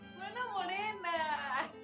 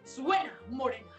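First: It is said in a happy tone. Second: It is said in a threatening tone.

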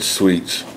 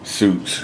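First: The word is not said like 'suits'. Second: The word is said like 'suits'. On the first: The speaker calls it right. "Did I say it right that time" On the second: The speaker calls it wrong. "She's always on my ass about how I say it"

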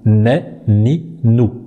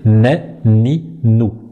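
The two takes are said the same way.

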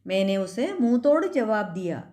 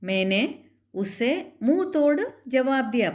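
First: Munh tod is run together quickly as mootod. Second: Munh tod is said fully and carefully. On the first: The speaker calls it right. "മൂത്തോട് അങ്ങനെ സ്പീഡിൽ പറയുമ്പം" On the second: The speaker calls it wrong. "പറയുമ്പം നമ്മൾ മുഹുതോടെന്നൊന്നും പറയത്തില്ല"

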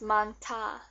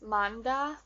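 First: The middle consonant is a hard T sound. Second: The middle consonant is a soft D sound. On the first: The speaker calls it right. "It's manta because this H makes this a hard sound" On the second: The speaker calls it wrong. "You would think that it would be just manda, but that's not right"

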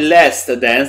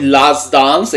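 First: Both words use American-sounding vowels. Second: Both words use British-sounding vowels. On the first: "és akkor amerikaiak vagyunk" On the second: "és akkor angolosak vagyunk"

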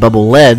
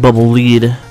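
First: The word lead rhymes with bed. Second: The word lead rhymes with need. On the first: It refers to the metal used in bullets. The speaker calls it right. "it's like a bubble bullet, like, you know, eat lead" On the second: It refers to leading, as in leader. The speaker calls it wrong. "doesn't really make much sense"

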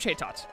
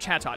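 First: The first syllable has a long 'ay' vowel. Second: The first syllable has a short 'a' vowel. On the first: The speaker calls it wrong. "I always want to say Chaytot for some reason" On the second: The speaker calls it right. "It's Chatot, isn't it?"

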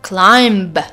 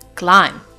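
First: A b sound is pronounced at the end. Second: No b sound is pronounced at the end. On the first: The speaker calls it wrong. "It's not climb" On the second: The speaker calls it right. "but it's climb"

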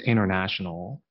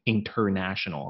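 First: The T sound in the middle is silent. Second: The T sound in the middle is pronounced. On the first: The speaker calls it right. "It's international, okay? So the T, you can change it to just like silent" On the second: The speaker calls it wrong. "I don't say international"

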